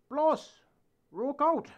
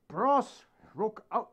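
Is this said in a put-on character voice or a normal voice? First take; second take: character; normal. First: It is said in a put-on character voice. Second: It is said in the speaker's normal voice. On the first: The speaker calls it wrong. "did I say that in the Charlie voice?" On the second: The speaker calls it right. "I'm supposed to say"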